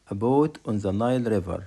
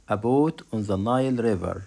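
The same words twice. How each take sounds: The two takes are said the same way.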